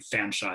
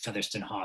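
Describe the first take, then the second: First: The name is said shortened to two syllables. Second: The name is said in four full syllables. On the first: This is how the name was said in that historical period. "they pronounce this surname Fanshawe in the period" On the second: This is how the name is said today. "we pronounce it"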